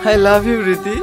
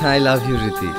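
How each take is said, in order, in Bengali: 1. এটি জোরে বলা হয়েছে। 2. এটি আস্তে, স্বাভাবিক আওয়াজে বলা হয়েছে। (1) "জোরে বলো" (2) "এভাবে না"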